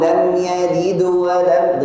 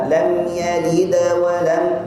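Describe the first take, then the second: First: The echo sound leans slightly toward a u vowel. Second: The echo sound leans slightly toward an a vowel. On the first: "dekat dhammah sedikit" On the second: "dekat fathah sedikit"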